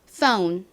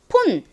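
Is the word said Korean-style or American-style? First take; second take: American; Korean. First: It is said with an American-style long o. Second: It is said with a Korean-style plain o. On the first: "미국식 발음으로 연습해 볼게요" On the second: "한국식으로는 이 O를 그냥 O로 표기를 해서 폰 이렇게 주로 발음하고"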